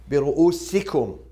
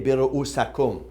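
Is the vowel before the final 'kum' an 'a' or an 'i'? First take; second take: i; a. First: The vowel before 'kum' is an 'i'. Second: The vowel before 'kum' is an 'a'. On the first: The speaker calls it right. "Kasra, we all agree, because we have B" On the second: The speaker calls it wrong. "We cannot say"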